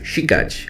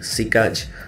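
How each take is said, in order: First: It starts with a soft, sh-like sound. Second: It starts with a hard, plain s sound. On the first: The speaker calls it right. "sounds like she also. Not si" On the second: The speaker calls it wrong. "We don't say sikać"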